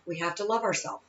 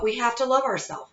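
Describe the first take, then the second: First: Much softer, sinking on the echo; quiet, sincere echo of the line; soft repeat. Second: Said in the usual way. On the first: Shown as a demonstration. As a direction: let it fall to near a hush.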